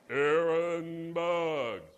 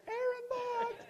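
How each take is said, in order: First: Very slow, deep, loud divine call; booming voice of God. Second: Much higher, thin mock voice of God; squeaky God voice. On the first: Retold or imitated. Pastor corrects himself, God calling his name, deep and booming. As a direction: draw the name out like thunder from heaven. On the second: Pastor mocking how God wouldn't sound, high squeaky call. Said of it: "I don't think he's gonna say".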